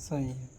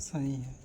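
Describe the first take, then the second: Both takes have the same delivery.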